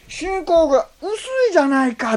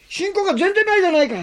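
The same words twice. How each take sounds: First: Mild rebuke. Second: 全然 stressed hard, fast and high; harsh rebuke. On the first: Preacher quoting Jesus's actual words, mild. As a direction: chide gently. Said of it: "って言ったんですね". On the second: Preacher contrasting what Jesus did not say, harsh. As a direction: scold with 全然 punched. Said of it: "とは言わなかった". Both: Shown as a demonstration.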